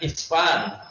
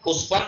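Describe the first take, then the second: First: The word begins with an 'i' vowel. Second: The word begins with a 'u' vowel. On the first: The speaker calls it right. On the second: The speaker calls it wrong.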